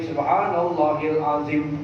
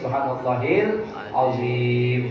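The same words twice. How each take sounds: First: The last vowel of azim is short. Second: The last vowel of azim is long. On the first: The speaker calls it wrong. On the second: The speaker calls it right.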